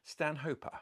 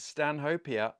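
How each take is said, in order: First: The middle sounds like 'hope', then a. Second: The middle does not sound like 'hope'. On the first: The speaker calls it right. "you pronounce his name Stanhope. It was Latinized with an a at the end" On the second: The speaker calls it wrong. "it's not"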